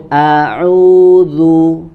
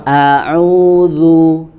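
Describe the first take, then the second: No difference in how they are said.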